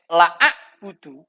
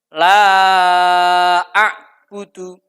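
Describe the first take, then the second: First: The vowel of la is cut short. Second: The vowel of la is held long. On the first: Indeed I worship. The speaker calls it wrong. "Tapi kalau dibaca pendek" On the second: I do not worship. The speaker calls it right. "Yang seharusnya dibaca panjang"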